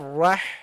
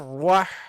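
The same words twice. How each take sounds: First: The vowel is said with unrounded lips. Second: The vowel is said with rounded lips. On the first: The vowel is a fatha. The speaker calls it right. "watch out with this fatha" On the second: The vowel sounds like a dhamma. The speaker calls it wrong. "Don't make your lips round when you pronounce it. So don't say"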